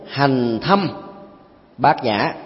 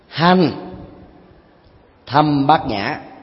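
First: The break falls after the second word. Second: The break falls after the first word. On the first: Prajna is practiced deeply. "Cái câu thứ nhất" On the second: The prajna practiced is itself profound. "Lối dịch thuật thứ hai với nhịp ngắt câu là"

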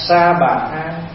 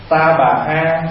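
First: The first word begins with an s sound. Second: The first word begins with a t sound. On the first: The speaker calls it right. "mình đọc theo người Bắc là sa bà là đúng" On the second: The speaker calls it wrong. "mình đọc ta bà là nó hơi cạn chữ"

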